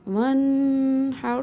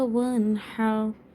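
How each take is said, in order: First: The n is held with a long nasal hum. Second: The n is clear, without a held nasal hum. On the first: The speaker calls it wrong. "इस तरह ... ऐसे नहीं पढ़ेंगे।" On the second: The speaker calls it right. "यहाँ इज़हार हल्की हो रहा है, ... तो यहाँ हम इतना गुन्ना नहीं करेंगे।"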